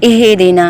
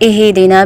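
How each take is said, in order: No difference in how they are said.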